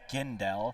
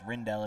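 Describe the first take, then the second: First: The name begins with a hard G sound. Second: The name begins with an R sound. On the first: The speaker calls it right. "It is Gindel" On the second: The speaker calls it wrong. "I have been pronouncing Gindel's name wrong"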